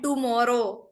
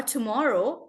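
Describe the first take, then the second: First: Tomorrow as "TOO-moro" with hard curled T; Indian hard T. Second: Tomorrow with a light English T; English T sound. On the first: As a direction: say tomorrow with the T of tamatar. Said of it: "we are using ter se tomater and not T". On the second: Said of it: "When we have to say". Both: Shown as a demonstration.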